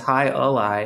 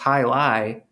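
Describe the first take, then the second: First: The name is said with three syllables. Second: The name is said with two syllables. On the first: The speaker calls it right. "It's pronounced Hi-A-Lie" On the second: The speaker calls it wrong. "I was pronouncing it wrong. I thought it was pronounced Hi-Lie"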